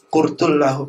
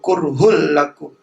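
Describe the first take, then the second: First: The first word has a t, the second an h. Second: The first word has an h, the second a k. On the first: The speaker calls it wrong. "Tapi dibaca kurtul lahum" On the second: The speaker calls it right. "Wa huwa kurhul lakum"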